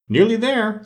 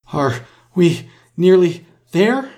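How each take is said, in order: First: Exclaimed echo. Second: High, slow gasped question, word by word; panting. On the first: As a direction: throw it back in a high, impatient queen's voice. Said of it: "the queen repeated". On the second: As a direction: pant it out, barely managing each word. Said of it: "Alice managed to pant out at last". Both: A narrator's reading.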